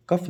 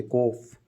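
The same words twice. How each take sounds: First: "कफ" with a short a; wrong pronunciation. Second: "कोफ" with a long o; correct pronunciation. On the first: Teacher showing how not to say cough, wrong pronunciation. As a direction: say "कफ", short a instead of o. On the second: Teacher correcting the word cough, correct pronunciation. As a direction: say "कोफ", o rather than short a. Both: Shown as a demonstration. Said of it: "कफ नहीं बोलते".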